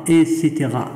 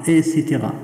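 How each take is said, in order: The two takes are said the same way.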